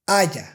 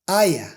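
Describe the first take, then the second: First: The y sound is the Spanish y. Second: The y sound is the English y. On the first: The speaker calls it right. "The correct way to pronounce these sounds is" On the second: The speaker calls it wrong. "if I want to pronounce these words with the English Y"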